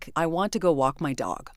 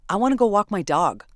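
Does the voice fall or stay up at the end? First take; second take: falls; stays up. First: The voice falls down at the end. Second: The voice stays suspended at the end.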